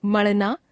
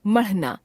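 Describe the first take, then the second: First: मढ़ना said as मड़ना, rising; मढ़ना without aspiration, end lifted. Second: मढ़ना with aspirated flap ढ़, falling; मढ़ना as maṛhna, closing fall. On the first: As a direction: drop the breath of ढ़ in मढ़ना. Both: Shown as a demonstration. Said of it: "ड़ और ढ़ की अशुद्धियां".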